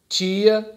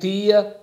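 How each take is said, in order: First: It is said in a Southeastern Brazilian accent. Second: It is said in a Northeastern Brazilian accent. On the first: "Eu sou do Sudeste" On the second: "para quem é do Nordeste"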